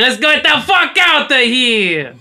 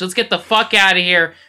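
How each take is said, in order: First: It is said in a Wario-like character voice. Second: It is said in his normal voice.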